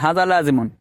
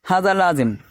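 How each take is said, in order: First: The last word ends with an added 'un'. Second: The last word ends without a case ending. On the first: "आखिर में पेश पढ़ना" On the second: "एराब ज़ाहिर करना ना करना"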